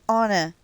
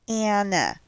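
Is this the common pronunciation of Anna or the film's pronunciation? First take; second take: film; common. First: Anna is said the way the film's characters say it. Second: Anna is said the way many people commonly say it. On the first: This is how the characters say the name. The speaker calls it right. "they pronounce it Anna in the movie" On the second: This is how many people say the name. The speaker calls it wrong. "not Anna"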